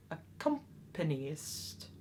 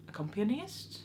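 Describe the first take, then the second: First: Accompanist said very slowly, syllable by syllable; careful pronunciation. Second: Accompanist? with a rising questioning tune; unsure, ask Accompanist?; doubtful pronunciation. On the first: Vlogger correcting her own stumble, slow careful Accompanist. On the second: Vlogger checking her own word, questioning rise on Accompanist?. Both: Shown as a demonstration. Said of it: "I'm so sorry".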